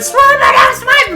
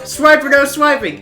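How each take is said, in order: First: It is shouted as loud as possible. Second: It is said at a normal, quieter volume.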